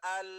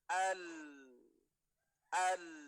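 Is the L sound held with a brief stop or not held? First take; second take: not held; held. First: The L sound is not held with a stop. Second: The L sound is held with a brief stop. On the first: The speaker calls it wrong. "bukan al" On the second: The speaker calls it right. "ketika bertasydid nanti akan ada jeda"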